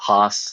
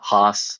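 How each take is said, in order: First: The vowel sounds like the one in 'boss'. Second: The same.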